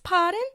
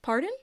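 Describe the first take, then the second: First: It is said in a put-on British accent. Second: It is said in her usual American accent.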